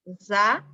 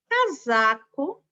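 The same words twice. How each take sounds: First: Said in the usual way. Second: Casaco drawn out, slow and rising; slow teaching read of "Casaco"; slow syllables. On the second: Shown as a demonstration. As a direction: stretch out each syllable of "Casaco". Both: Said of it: "olha aqui".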